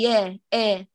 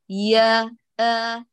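First: The vowel is raised toward an e sound. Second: The vowel is a fully open a sound. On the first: The speaker calls it wrong. "لا تقولي يا آ وهو مرفوع" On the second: The speaker calls it right. "افتحي"

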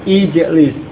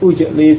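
First: The first vowel is an i sound. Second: The first vowel is a u sound. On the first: The speaker calls it right. "sehingga di sini menjadi ijlis" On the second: The speaker calls it wrong. "bukan ujlis atau ughsil, bukan"

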